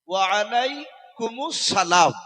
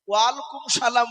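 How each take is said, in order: First: A 'us' sound joins alaikum to salam. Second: Alaikum runs straight into salam with no vowel. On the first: The speaker calls it right. "এটা হচ্ছে সঠিক উত্তর।" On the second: The speaker calls it wrong. "এগুলো সব ভুল হবে বাপ।"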